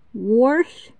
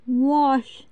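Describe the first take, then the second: First: Wash as "worsh"; drawn-out wash with a dialect R. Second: Said in the usual way. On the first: Shown as a demonstration. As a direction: sound an R in the middle of wash. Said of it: "use the letter S as R".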